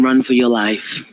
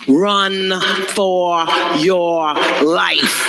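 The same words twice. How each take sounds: First: Said in the usual way. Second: Slow drawn-out. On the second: Shown as a demonstration. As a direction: Run for your life stretched very slow.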